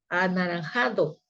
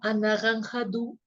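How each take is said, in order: First: It is said with a native Mexican Spanish accent. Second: It is said with a French speaker's accent. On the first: The speaker calls it right. "mira, anaranjado" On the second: The speaker calls it wrong. "entonces decían como anaranjado"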